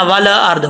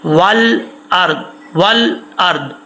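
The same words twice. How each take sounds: First: والارض with a bounced, echoing lam; wrong qalqala. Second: والارض with the lam held still, no bounce, slower; settled lam. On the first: Teacher imitates the students' qalqala mistake, clipped echo on lam. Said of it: "والارض، ایسا نہیں". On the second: Teacher shows students the correct lam, calm slow reading. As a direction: let the lam in والارض rest without echo. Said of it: "لام میں آواز جم جائے گی". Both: Shown as a demonstration.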